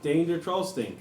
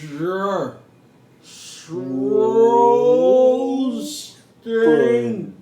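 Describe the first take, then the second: First: The phrase is spoken at a quicker pace. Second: The phrase is spoken at a much slower pace.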